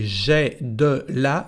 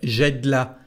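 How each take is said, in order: First: Each word is pronounced fully and separately. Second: The words are run together and contracted.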